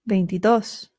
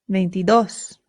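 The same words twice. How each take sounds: The two takes are said the same way.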